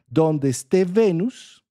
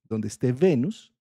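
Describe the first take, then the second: First: "donde esté Venus" slow, louder, pitched up on "esté"; emphatic, slow. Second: Said in the usual way. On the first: Shown as a demonstration. Astrology teacher stressing the key rule to students, slow and emphatic. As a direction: lean hard on "donde esté Venus", stretching "esté".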